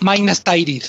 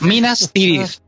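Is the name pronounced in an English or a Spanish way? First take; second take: English; Spanish. First: The name is pronounced with English-style sounds. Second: The name is pronounced with Spanish-style sounds. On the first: The speaker calls it wrong. "no Minas Tirith" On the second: The speaker calls it right. "No, Minas Tirith"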